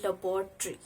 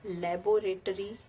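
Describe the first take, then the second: First: Laboratory clipped to la-bor-tree; teacher correcting laboratory; correct pronunciation. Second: Laboratory as la-bo-ra-tory, every syllable; wrong pronunciation. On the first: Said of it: "it's laboratory". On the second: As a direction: spell out laboratory in full, la-bo-ra-tory. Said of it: "It's not laboratory". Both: Shown as a demonstration.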